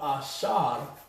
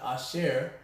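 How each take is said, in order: First: The second syllable has an 'ar' sound. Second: The second syllable has an 'er' sound. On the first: The speaker calls it right. "but Ashar" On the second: The speaker calls it wrong. "not Asher"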